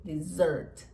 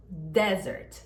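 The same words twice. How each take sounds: First: Dessert com a tônica no sert e o e fechado; stress on second syllable. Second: Desert com a tônica no de e o e aberto; stress on first syllable. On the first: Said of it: "a sílaba tônica é a segunda". (ênfase na segunda sílaba: Dessert) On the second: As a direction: hit the DE of desert. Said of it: "a sílaba tônica é a primeira". (ênfase na primeira sílaba: desert) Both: Shown as a demonstration.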